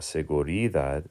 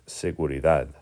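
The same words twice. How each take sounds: First: The stress is not on the last syllable. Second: The stress is on the last syllable. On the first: The speaker calls it wrong. "It's not seguridad" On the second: The speaker calls it right. "It's seguridad"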